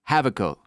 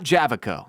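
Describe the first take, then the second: First: The name begins with a soft J sound. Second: The name begins with a hard J sound. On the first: The speaker calls it right. "soft J" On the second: The speaker calls it wrong. "not Javico. I think I've been saying this wrong"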